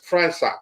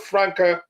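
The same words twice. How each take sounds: First: The C is said like an S. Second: The C is said like a K. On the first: The speaker calls it right. "It's pronounced as Franca. The C is pronounced sounds as an S" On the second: The speaker calls it wrong. "it's not a Franca"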